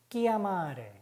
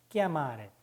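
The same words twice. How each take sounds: First: 끼아마레 with a hard k, as in chiamare; hard k sound. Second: 끼아마레 repeated with a hard k, falling; a crisp k on 끼아마레; hard k again. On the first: Teacher showing ch as hard k. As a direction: say 끼아마레 with k, not ch. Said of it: "끄로 발음이 됩니다". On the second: Teacher repeating hard k demo. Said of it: "다섯 가지만 주의하시면". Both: Shown as a demonstration.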